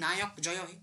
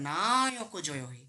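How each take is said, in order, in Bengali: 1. ধ্বনিগুলো ছোট ও সমানভাবে বলা হয়। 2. ধ্বনিগুলো টেনে লম্বা করে বলা হয়। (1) "বলি না।" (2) "ওখানে দেখ বাড়ালাম।"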